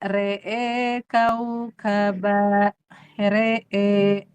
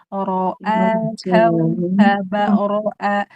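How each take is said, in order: First: The r is light with a fronted e vowel. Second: The r is heavy with a full a vowel. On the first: The vowel is read with imalah. "jadi tipis" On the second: The vowel is read without imalah. "Kalau dibaca tidak imalah, ro itu tebal"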